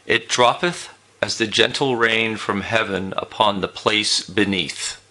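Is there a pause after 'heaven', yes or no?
no. It runs on without a pause after heaven.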